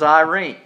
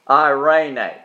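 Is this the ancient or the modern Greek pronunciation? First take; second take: modern; ancient. First: It is said with the modern Greek pronunciation. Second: It is said with the ancient Greek pronunciation. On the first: "the contemporary Greek pronunciation is" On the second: "the pronunciation in the Greek probably 2 years ago was"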